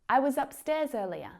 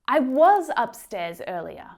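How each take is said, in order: First: The word 'was' is quick and reduced. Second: The word 'was' is full and emphasized. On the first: "when spoken quickly, those vowel sounds reduce right down" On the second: "where we're really trying to emphasize that that's the truth"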